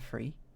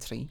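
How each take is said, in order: First: The word begins with an f sound. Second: The word begins with a t sound. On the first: "pronounce it the same as F" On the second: "almost like a T"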